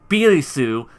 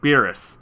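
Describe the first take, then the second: First: It is said as a three-syllable Japanese-style name. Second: It is said as a shorter English-style name. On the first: The speaker calls it wrong. "you don't say Birisu" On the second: The speaker calls it right. "you say Beers or Beerus"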